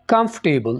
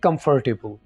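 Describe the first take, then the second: First: The 'r' sound after 'com' is dropped. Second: An 'r' sound is said after 'com'. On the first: The speaker calls it right. "आर की sound आप लेके आ रहे हैं, इसको आपने हज़फ कर देना" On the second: The speaker calls it wrong. "कम फर नहीं कहना आपने"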